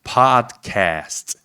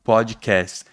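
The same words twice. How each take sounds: First: Podcast with an open O, padkɛst; podcast in American English. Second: Podcast Brazilian style, podjikést; podcast with a Portuguese O. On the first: Teacher showing students how he says podcast. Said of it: "eu falei". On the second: Teacher showing students the Brazilian podcast. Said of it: "Eu não falo pod". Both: Shown as a demonstration.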